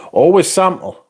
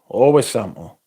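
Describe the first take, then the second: First: Always sample said higher and louder; an emphatic Always sample. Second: Said in the usual way. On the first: Shown as a demonstration. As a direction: push the words Always sample like advice.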